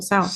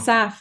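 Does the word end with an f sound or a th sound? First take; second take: th; f. First: The final sound is a th sound. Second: The final sound is an f sound. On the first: This is how people from the speaker's home area do not say it. "not South" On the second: This is how people from the speaker's home area say it. "We say South"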